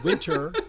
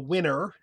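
First: The T after the N is clearly pronounced. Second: The T after the N is dropped. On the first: "Instead of saying winter" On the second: "post-nasal T deletion"

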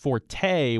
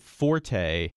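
First: The stress is on the second syllable. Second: The stress is on the first syllable. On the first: It means a person's strong point. "when people are talking about somebody's strength" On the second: It is the musical term for playing loudly. "with the stress on the first syllable"

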